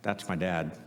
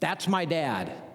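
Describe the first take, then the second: First: It sounds embarrassed and ashamed. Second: It sounds proud and admiring. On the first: The son is ashamed of his father. "or in the way it's said" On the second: The son is proud of his father. "every dad is going to be filled with either pride and accomplishment"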